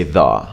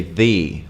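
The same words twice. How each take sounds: First: "the" said as a short thuh; the before a consonant. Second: "the" said as thee before a vowel. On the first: Teacher showing consonant rule, "the" as thuh. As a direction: say "the" with a weak thuh. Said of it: "if it starts with a consonant, you just say". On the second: Teacher showing vowel rule, "the" as thee. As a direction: say "the" with a long ee, thee. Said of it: "if it starts with a vowel, you say". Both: Shown as a demonstration.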